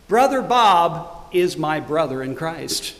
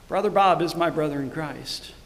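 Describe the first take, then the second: First: BROTHER BOB punched, then slowly spaced out; slow, weighty stress on Brother Bob; emphatic realization. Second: Said in the usual way. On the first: Retold or imitated. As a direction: declare "Brother Bob" firmly, pausing before the rest. Realization voiced, then repeated softer.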